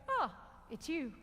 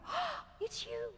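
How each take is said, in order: First: It sounds somewhat pleased but calmer. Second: It sounds very excited and lively. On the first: The pair are getting used to each other. "You're getting a bit more used to each other" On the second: The relationship is new and thrilling. "You open the door on Friday night"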